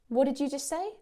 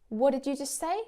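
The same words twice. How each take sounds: Both takes have the same delivery.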